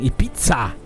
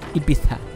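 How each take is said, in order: First: The name is said with a German pronunciation. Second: The name is said with a Spanish pronunciation. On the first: This is how Germans say it. "wir sagen Ibiza" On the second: This is how locals say it. "Wenn die Einheimischen das sagen, oder Spanier"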